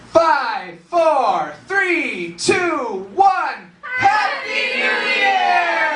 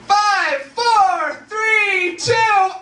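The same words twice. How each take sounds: First: High, drawn-out party countdown building to a shout; celebratory crowd-leading countdown, rising higher; New Year's yell. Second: Very high, loud, wailing countdown; hammed-up shrieking countdown, like the world is ending. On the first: Shown as a demonstration. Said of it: "everyone's gonna yell with me". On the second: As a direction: scream each number in mock doom. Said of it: "it would sound something like this".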